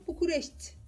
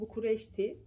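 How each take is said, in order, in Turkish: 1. Son i yalnızca yarım sesli telaffuz edilir. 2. Son i tam olarak telaffuz edilir. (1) "Yani bir orada i var da t'den sonra ama yok da gibi. Yarım ses çıkıyor" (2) "Biz böyle okuyoruz"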